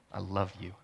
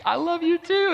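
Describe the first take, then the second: First: Soft, low, tender declaration; tentative confession. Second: Very high, gushing squeal of words; light up, pitch leaping way up; imitating delighted girlfriend. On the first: Retold or imitated. Boyfriend first confesses love to his girlfriend, softly and tenderly. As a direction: say it quietly, much lower. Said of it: "I can remember going and saying". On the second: Girlfriend answers his first confession, imitated in high excitement. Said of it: "she lit up like a Christmas tree".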